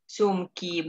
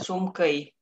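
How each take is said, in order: First: The word ends in a clear 'ee' vowel. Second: The word ends in a different, non-'ee' vowel. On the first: The speaker calls it right. "Sumki, bukan sumkei" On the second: The speaker calls it wrong. "bukan sumkei"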